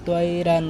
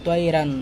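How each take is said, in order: Both takes have the same delivery.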